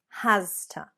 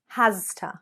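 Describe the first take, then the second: The two takes are said the same way.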